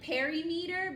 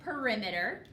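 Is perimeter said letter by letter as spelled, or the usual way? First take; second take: as spelled; usual way. First: It is sounded out the way it is spelled. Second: It is said with its usual spoken pronunciation. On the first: The speaker calls it wrong. "this word looks like perimeter" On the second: The speaker calls it right. "we actually pronounce it perimeter"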